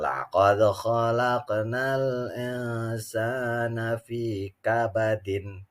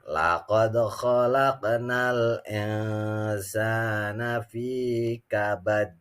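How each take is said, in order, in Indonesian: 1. Kata terakhir berakhir dengan akhiran '-in' yang ditambahkan. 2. Kata terakhir berakhir tiba-tiba dengan bunyi 'd' yang memantul. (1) "Kalau bacanya nyambung" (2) "kalau dibaca waqaf"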